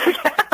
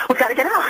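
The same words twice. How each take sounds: First: Laughing through the repeat, higher; breaking into a laugh on the urgent line. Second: Said in the usual way. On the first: Retold or imitated. Mother retelling ex-husband's panicked call, laughing and higher.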